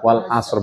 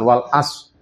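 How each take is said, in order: First: The word ends with an audible r sound. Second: The word ends on s with no r sound. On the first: The speaker calls it right. "Ketika berhenti juga wal asr" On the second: The speaker calls it wrong. "bukan wal as"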